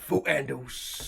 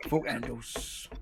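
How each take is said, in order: First: Slow, drawn-out mock London "Fuck handles"; London accent. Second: Slower, quieter London "Fuck handles" repeated; London accent. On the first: Teasing the mates back with a slow London accent. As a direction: lay on a London accent, slowly. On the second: Repeating the joke to the mates in a slow London accent. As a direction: echo it in London accent, dropping away. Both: Shown as a demonstration. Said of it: "your brilliant London accent".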